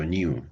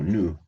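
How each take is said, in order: First: "new" as nee-oo; "new" with a y-glide. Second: "new" as plain noo, falling; "new" without y-glide. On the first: Teacher rejecting a variant for themselves, "new" as nyoo. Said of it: "no digo new". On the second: Teacher stating their own preference, "new" as noo. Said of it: "digo new". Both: Shown as a demonstration.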